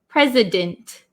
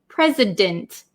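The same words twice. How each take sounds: Both takes have the same delivery.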